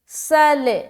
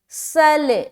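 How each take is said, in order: First: The final L is released with a slight bounce. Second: The final L is released with a slight bounce.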